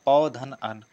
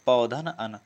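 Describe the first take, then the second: No difference in how they are said.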